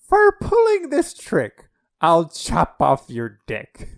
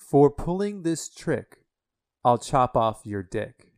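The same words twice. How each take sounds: First: It is said in a put-on character voice. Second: It is said in the speaker's own plain voice. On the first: "I'll do it again in a character voice" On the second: "I'm going to say it without the character's voice, just straight up"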